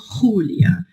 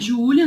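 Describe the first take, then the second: First: The name is pronounced the Spanish way. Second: The name is pronounced the Portuguese way. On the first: "E se eu falo em espanhol" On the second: "Meu nome é Júlia"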